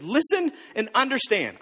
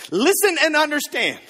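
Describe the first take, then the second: First: Said in the usual way. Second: "Listen" hit hard, louder and higher, falling at the end; commanding proclamation. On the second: Shown as a demonstration. Pastor trying out Jesus's line on the congregation, louder proclamation. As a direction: proclaim "Listen and understand" like an order to a crowd. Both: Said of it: "I'm gonna start using that".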